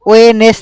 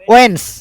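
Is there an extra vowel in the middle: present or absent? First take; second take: present; absent. First: An extra vowel is heard between n and s. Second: No vowel is heard between n and s. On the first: The speaker calls it wrong. "ওয়েনেস না" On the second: The speaker calls it right. "এটা কি উচ্চারণ হবে? ওয়েন্স"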